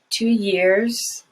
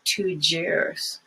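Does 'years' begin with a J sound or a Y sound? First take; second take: Y sound; J sound. First: The word begins with a Y sound. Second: The word begins with a J sound. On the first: The speaker calls it right. "But it's just two years" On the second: The speaker calls it wrong. "many people who have Spanish as the first language say jeer"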